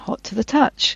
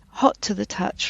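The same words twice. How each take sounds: First: The stress falls where it normally would. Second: The stress falls on an unexpected word. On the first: A person would say it this way. The speaker calls it right. "rather than" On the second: A synthetic voice produced it. The speaker calls it wrong. "misplace the emphasis in a phrase"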